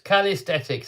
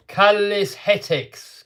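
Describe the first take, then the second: First: Said in the usual way. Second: Calisthenics drawn right out, higher pitched; slow, high attempt at pronouncing Calisthenics; sounding it out. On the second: Shown as a demonstration. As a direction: stretch Calisthenics slowly, syllable by syllable. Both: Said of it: "trying to say it".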